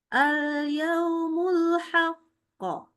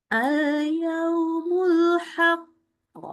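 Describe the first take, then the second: Both takes have the same delivery.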